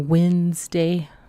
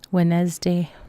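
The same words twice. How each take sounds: First: It starts with 'winds', like windy. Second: It is said with the usual pronunciation.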